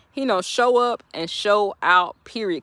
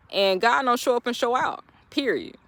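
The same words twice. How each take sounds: First: Each word laid down slowly; slow, deliberate repeat. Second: Said in the usual way. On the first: Shown as a demonstration. To viewers, a slow emphatic sermon repeat. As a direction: drag it out for weight.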